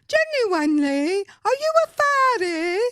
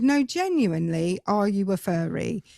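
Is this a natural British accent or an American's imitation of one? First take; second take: American imitation; natural British. First: It imitates an American's attempt at a British accent. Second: It is said in the speaker's natural British accent.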